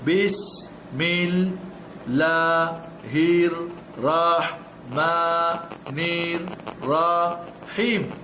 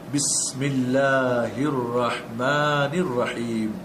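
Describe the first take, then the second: First: Each syllable is said slowly and separately. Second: The syllables are joined into smooth, fluent words. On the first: "ধরে ধরে একটা একটা করে অক্ষর" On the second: "লাস্টে গিয়ে আপনি পড়বেন"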